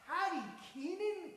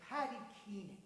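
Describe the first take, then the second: First: Astonished. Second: Said in the usual way. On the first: Acted. Ron repeats in astonishment.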